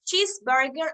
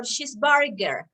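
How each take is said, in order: First: CHEESEburger, weight on CHEESE; stress on first syllable. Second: CheeseBURger, weight moved onto BUR; stress on second syllable. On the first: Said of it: "First syllable". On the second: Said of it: "or second syllable?". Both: Shown as a demonstration.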